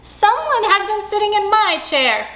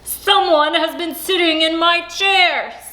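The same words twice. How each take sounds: First: It is said in a middle-sized voice. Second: It is said in a big, deep voice.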